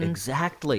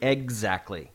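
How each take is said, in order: First: The word is said without a g sound. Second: The word is said with a g sound. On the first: The speaker calls it right. "that's the first time that I've ever said exactly correctly" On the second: The speaker calls it wrong. "It's usually exactly. I say it with a G"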